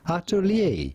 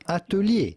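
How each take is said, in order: First: It is said with American English pronunciation. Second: It is said with French pronunciation.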